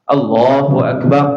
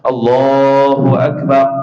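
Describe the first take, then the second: First: The vowel is held only briefly. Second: The vowel is drawn out long.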